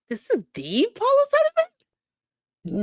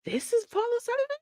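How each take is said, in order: First: High, slow, loud incredulous question; can't believe what you see; disbelief. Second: High, fast, stunned question; disbelief. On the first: Host reacting to Paul O'Sullivan footage in disbelief. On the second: Host doubting the footage, asked high and fast. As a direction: ask it in shock. Incredulous at the video. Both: Real, not acted.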